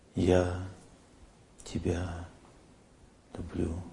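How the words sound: It is said warmly, with felt affection. The feeling is genuine and remembered. The speaker calls it right. "сейчас я вспоминаю ... Видите, заметно стало сразу"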